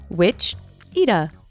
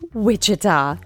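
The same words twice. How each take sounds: First: The name is pronounced in a misread, nonstandard way. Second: The name is pronounced in the standard local way. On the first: This is how the name sounded when only read. The speaker calls it wrong. "have the pronunciation in your head for so long that when you hear it, it just feels wrong" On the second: This is how the name is actually said. The speaker calls it right. "I'm so sorry, Kansas. It's Wichita"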